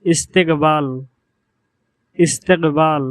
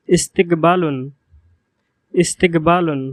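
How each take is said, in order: First: ইস্তেকবাল with e and no case ending; dialect Arabic. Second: ইস্তিকবালুন with a throaty qaf and full -un ending; classical Arabic. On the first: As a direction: say ইস্তেকবাল the regional way. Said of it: "এর আঞ্চলিক উচ্চারণ হলো". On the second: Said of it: "বিশুদ্ধ আরবি ভাষায়". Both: Shown as a demonstration.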